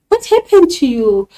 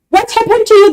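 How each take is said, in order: First: It is said in a concerned, sympathetic tone. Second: It is said in an angry, impatient tone. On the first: The speaker cares about what went wrong. "The tone will be concerned, sympathizing" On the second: The speaker is fed up with the excuses. "the tone will be now of anger, impatience"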